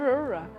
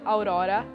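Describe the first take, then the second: First: It is said the English way. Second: It is said the Portuguese way.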